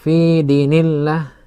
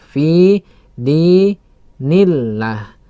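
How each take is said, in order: First: The vowels in fi and di are short. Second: The vowels in fi and di are long. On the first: The speaker calls it wrong. "ya bukan fi dinillah ... ya tidak tepat" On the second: The speaker calls it right. "Fi panjang, dal panjang"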